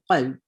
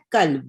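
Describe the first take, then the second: First: قلب with q from deep in the throat; big qaf. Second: قلب with a front k, as "kalb"; small kaf. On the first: Teacher explaining the word for heart, deep qaf in قلب. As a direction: bring the first sound of قلب from far back. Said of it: "بڑے قاف سے، اندر سے نکالنا پڑتا ہے". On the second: Teacher contrasting the word for dog, plain k in قلب. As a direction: say قلب with an ordinary k. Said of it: "جو اپنا چھوٹا کا". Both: Shown as a demonstration.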